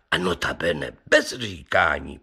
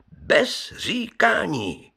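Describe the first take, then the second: First: Said in the usual way. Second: „říkání“ vysoko a pomalu, s klesající melodií na konci; protáhnout „bez říkání“ výš a pomaleji; důraz na bez říkání. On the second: Acted. Opakuje pro důraz. (Pivoňka zdůrazňuje pánům zázračného psa, s důrazem na „říkání“)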